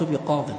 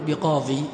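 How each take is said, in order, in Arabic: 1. لا تنتهي الكلمة بياء مد طويلة. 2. تنتهي الكلمة بياء مد طويلة. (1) "لا تقول مررت بقاض" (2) "العرب ما تقول بقاضي"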